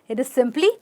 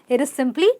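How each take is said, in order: Both takes have the same delivery.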